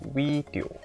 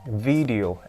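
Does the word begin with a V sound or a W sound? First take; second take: W sound; V sound. First: The word begins with a W sound. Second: The word begins with a clear V sound. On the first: The speaker calls it wrong. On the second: The speaker calls it right.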